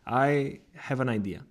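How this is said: A small pause comes partway through. The speaker is thinking carefully and inviting attention. "the small pause before the second part of the sentence creates anticipation"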